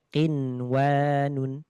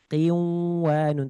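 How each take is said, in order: First: The n sound is pronounced clearly before w. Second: The n sound merges into the following w. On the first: The speaker calls it right. "Jadi ini nunnya dibaca jelas" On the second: The speaker calls it wrong. "Qiwanun tidak"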